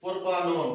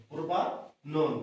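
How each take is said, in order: First: Said in the usual way. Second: propanone drawn out very slowly, each syllable clear; slow careful repeat. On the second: Shown as a demonstration. Teacher repeating the name slowly so students can write it. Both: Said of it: "এটা হচ্ছে কি?".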